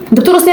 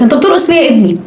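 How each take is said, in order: First: Incredulous. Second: Said in the usual way. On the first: Acted. Scolding a dancing young man.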